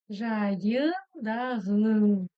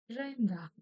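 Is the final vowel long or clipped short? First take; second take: long; clipped short. First: The final vowel is fully pronounced and long. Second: The final vowel is cut off very short. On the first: The speaker calls it wrong. "Если бы мы читали по-русски, было бы так" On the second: The speaker calls it right. "в казахском языке она как будто бы обрубается"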